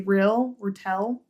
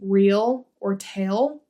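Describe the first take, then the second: First: The vowels are clipped and shortened. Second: The vowels are full and long. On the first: "we shorten our vowels" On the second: "instead of saying real or tail"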